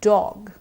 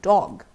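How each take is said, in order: First: The vowel is kept short. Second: The vowel is kept short.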